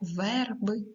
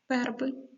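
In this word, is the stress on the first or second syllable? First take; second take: first; second. First: The stress is on the first syllable. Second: The stress is on the second syllable. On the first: "Під наголосом у нас «и», «е», як вони вимовляються? Чітко та виразно" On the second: "ненаголошені звуки «е», «и» ... Не чітко"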